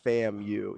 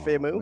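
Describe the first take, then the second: First: It ends with the letter U said separately. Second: It is blended into one word ending 'moo'. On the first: The speaker calls it right. "and not" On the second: The speaker calls it wrong. "I was just making all one word, like"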